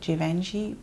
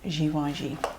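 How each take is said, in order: First: The name is said the English way. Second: The name is said in its original way. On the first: "in English you say like Givenchy" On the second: "the real pronunciation is Givenchy"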